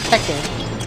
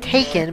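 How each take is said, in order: First: The first syllable sounds like 'tech'. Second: The first syllable sounds like 'take'. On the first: "my friends like remind me to do it as Tekken" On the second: "I now usually pronounce it Taken"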